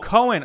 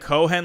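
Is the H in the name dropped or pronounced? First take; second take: dropped; pronounced. First: The H sound in the middle is soft or dropped. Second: The H sound in the middle is clearly pronounced. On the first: The speaker calls it right. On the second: The speaker calls it wrong.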